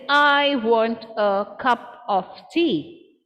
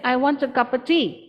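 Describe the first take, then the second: First: Every syllable gets equal, separate stress. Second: Unstressed words are squeezed together between stresses. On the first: "For a syllable stress, a syllable timed pattern, you would say" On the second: "But for a stress time, we'll say"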